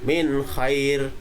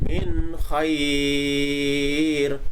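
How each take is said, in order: First: The vowel is held only briefly. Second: The vowel is held for a long time. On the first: "dua harokat, hanya dua ketukan" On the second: "nah itu berarti ada enam harokat"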